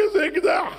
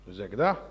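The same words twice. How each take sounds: First: איזה אקדח shouted high and loud; panicked shout. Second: איזה אקדח low and flat, mocking; mocking echo. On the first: Acted. Minister to king, shouting איזה אקדח in shock. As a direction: blurt איזה אקדח in alarm. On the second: King to minister, echoing איזה אקדח sarcastically. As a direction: throw איזה אקדח back at him.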